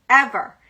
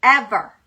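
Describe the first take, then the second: First: Ever. again louder, falling hard; firm repeated Ever. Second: Ever. said louder, falling hard; firm repeated Ever. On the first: Echoing Ever. about her true love, louder and falling. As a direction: land Ever. once more like a vow. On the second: Repeating Ever. to her true love, louder and falling. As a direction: land Ever. like a vow. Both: Retold or imitated. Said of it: "I was like".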